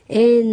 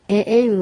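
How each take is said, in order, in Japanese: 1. 2つのe母音は切れ目なくつながっている。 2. 2つのe母音は切れ目で区切れている。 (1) "エエンのようになってはいけません" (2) "最初のエと2 番目のエを区切るように発音してください"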